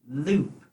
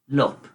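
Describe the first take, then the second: First: The vowel is a long oo sound. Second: The vowel is a short oo sound. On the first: The speaker calls it right. "Let's try the ghost first" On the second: The speaker calls it wrong. "Let's try the gorilla sound"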